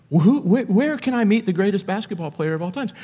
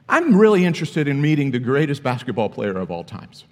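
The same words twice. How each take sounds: First: Higher, stumbling, clueless fan; silly fan asking Jordan where Jordan is, mock naive. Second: Said in the usual way. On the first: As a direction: play the fool asking Michael Jordan himself. Silly version, asking Jordan himself.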